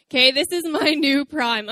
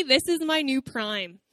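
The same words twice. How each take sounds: First: "this is my new prime" said again louder, leaning on "my" with a laugh; emphatic restatement. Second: Said in the usual way. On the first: Shown as a demonstration. Preacher repeating her claim to the church, emphatic and louder. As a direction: drive the point home on "my".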